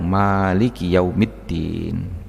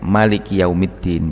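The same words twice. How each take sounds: First: The vowel after the m is long. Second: The vowel after the m is short. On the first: "mimnya dibaca panjang" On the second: "mimnya dengan bacaan yang pendek"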